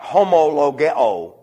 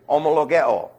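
First: It begins with a strong, heavy H sound. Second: It begins with a faint, barely heard H. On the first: The speaker calls it wrong. "the rough breathing does not connote a heavy H sound" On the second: The speaker calls it right. "It's so light you can't even detect it"

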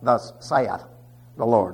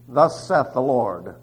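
First: The word saith is said like 'say-eth'. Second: The word saith is said like 'seth'. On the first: The speaker calls it wrong. "which some of you pronounce saith" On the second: The speaker calls it right. "the seths"

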